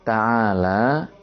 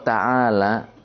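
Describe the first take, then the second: First: The final vowel is drawn out long. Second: The final vowel is said short. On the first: Praise that God is exalted. "Ini harus dipanjangkan, jangan sampai dibaca pendek" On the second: A command telling someone to come here. "Kalau ta'ala, akbil, datanglah ke sini"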